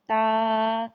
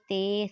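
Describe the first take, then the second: First: The letter name ends in an 'ah' vowel. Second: The letter name ends in an 'ay' vowel. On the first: This is the Arabic way of naming the letter. The speaker calls it right. "इनको अदा ऐसे किया जाता है" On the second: This is the Urdu way of naming the letter. The speaker calls it wrong. "Urdu तलफ़्फ़ुज़ से परहेज़ करें"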